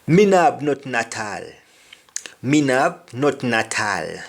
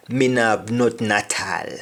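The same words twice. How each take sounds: First: Patois Me no have nothing at all; Jamaican patois. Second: Patois Me no have, repeated; patois again; Jamaican patois. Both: Shown as a demonstration. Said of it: "I don't have anything at all".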